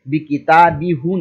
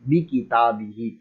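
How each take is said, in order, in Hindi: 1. अंतिम सर्वनाम में u स्वर बोला जाता है। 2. अंतिम सर्वनाम में i स्वर बोला जाता है। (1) "नहीं पढ़ेंगे" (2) "किताबी ही हम जेर ही पढ़ देंगे"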